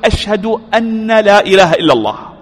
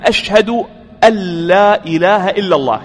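First: The n sound is pronounced clearly before la. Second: The n sound merges into the following l. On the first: The speaker calls it wrong. "بعض الناس يقول ... هذا ليس بصواب" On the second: The speaker calls it right. "هنا إدغام ... فنقول"

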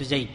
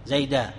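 First: The word ends on a bare consonant, no vowel. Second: The word ends with a long a vowel. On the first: This is a regional dialect way of pausing on the word. "لغة ربيعة أنك تقف بالسكون وحذف هذا الألف" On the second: This is the common way of pausing on the word. "اللغة المشهورة أنك تقف على المنون بالفتح، تقف عليه بالألف"

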